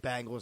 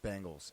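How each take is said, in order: First: The first vowel is an 'a' sound, like bang. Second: The first vowel is an 'e' sound, like beng. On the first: "I say Bengals" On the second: "instead of Bengals"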